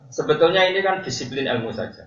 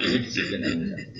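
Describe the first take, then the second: First: Said in the usual way. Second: Whispered repeat. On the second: Shown as a demonstration. Preacher repeats his point to the congregation in a whisper. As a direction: repeat "ini disiplin ilmu saja" in a hushed, unvoiced whisper. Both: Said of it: "Saya ulang lagi".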